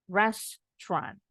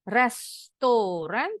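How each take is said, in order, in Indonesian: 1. Kata ini diucapkan dengan dua suku kata. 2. Kata ini diucapkan dengan tiga suku kata. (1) "pengucapannya cuma dua suku kata" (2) "bacanya restoran, tiga suku kata"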